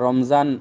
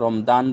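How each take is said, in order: First: The middle consonant is a 'j' sound. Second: The middle consonant is a 'd' sound. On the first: "যারা রমজান লেখেন" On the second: "শুধুমাত্র বলার জন্য কোনো সময় রমদান বলেন"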